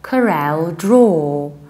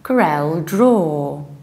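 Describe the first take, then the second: No difference in how they are said.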